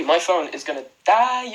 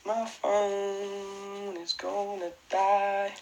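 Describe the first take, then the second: First: Said in the usual way. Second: Slow, much softer dying moan; mock despairing moan. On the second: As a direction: drag it out like the phone's last breath. Repeating the phone complaint.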